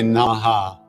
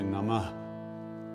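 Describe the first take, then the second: First: It ends with an extra full vowel syllable. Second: It ends with a breathy aspirated h. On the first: The speaker calls it wrong. "we say Namaha. It's not really Namaha" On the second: The speaker calls it right. "It's really Namah with a, an aspirated H at the end"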